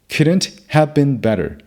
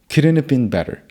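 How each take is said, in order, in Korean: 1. 'have'는 완전하고 따로 발음돼요. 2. 'have'는 줄어들고 축약돼요. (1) "이라고 하지 않고" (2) "꼭 축약한 형태로 발음해야 합니다"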